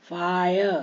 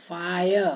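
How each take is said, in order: The two takes are said the same way.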